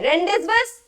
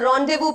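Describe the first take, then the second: First: It is read letter by letter, sounding every consonant. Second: It is said 'rondayvoo' with the consonants silent. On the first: The speaker calls it wrong. "रेंडिसबस pronounce करेंगे नहीं" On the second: The speaker calls it right. "इसको रॉन्डेवू pronounce करेंगे"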